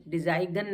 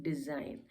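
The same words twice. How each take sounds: First: डिजाइगन with the g sounded; wrong pronunciation. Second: डिजाइन with silent g, softer; right pronunciation. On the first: Teacher showing the wrong reading डिजाइगन with sounded g. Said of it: "डिजाइगन नहीं पढ़ते हैं". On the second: Teacher giving the right reading डिजाइन with silent g. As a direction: say डिजाइन quietly, no g. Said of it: "हम इसको डिजाइन". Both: Shown as a demonstration.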